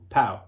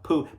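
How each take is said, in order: First: The vowel sounds like 'ow' in cow. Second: The vowel sounds like 'oo' in too. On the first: The speaker calls it right. "Let's call it Pow" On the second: The speaker calls it wrong. "Poo sounds rude"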